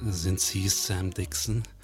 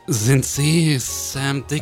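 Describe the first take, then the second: First: It is said in a deep, sexy voice. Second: It is said in a plain voice.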